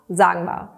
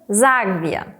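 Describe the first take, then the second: First: The two words are run together and shortened. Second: The two words are said separately in full.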